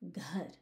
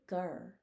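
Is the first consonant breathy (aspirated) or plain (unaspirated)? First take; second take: breathy; plain. First: The g is followed by a breathy h sound. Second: The g is plain, with no breath after it. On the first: The speaker calls it right. "there's an H after that G that you have to pronounce" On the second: The speaker calls it wrong. "I don't say ghar"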